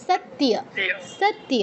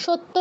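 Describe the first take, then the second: First: সত্য as sat-tiya, y sounded; touch the t, then full iya in সত্য. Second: সত্য as shotto, y dropped; Bengali doubled t. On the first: Teacher answering how it should be, সত্য as sattiya. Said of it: "ইয়টা ফুল বলতে হবে". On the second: Teacher showing the form to avoid, সত্য as shotto. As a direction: say সত্য as shot-to, no glide. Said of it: "সত্য নয়". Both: Shown as a demonstration.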